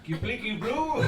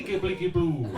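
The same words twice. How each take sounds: First: "Kipliki Boo" rising high on Boo; puzzled echo question. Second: "Kipliki Boo" stated, falling at the end; falling statement. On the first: Sailor baffled by his crewmate's word, puzzled question. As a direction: query "Kipliki Boo" with a climbing end. Other sailor echoes it in doubt. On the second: Sailor offering a made-up word, falling statement. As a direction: say "Kipliki Boo" as a plain assertion, voice dropping. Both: Acted.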